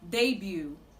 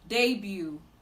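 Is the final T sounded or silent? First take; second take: silent; silent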